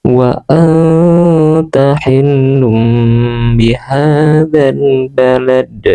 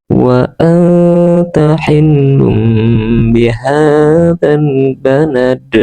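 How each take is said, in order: No difference in how they are said.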